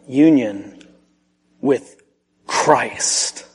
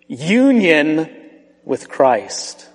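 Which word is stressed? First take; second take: Christ; union. First: The word Christ carries the stress. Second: The word union carries the stress. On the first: The focus is on the person the doctrine points to. The speaker calls it right. "there was a slight emphasis change there" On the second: The focus is on the doctrine itself. The speaker calls it wrong. "there was a slight emphasis change there"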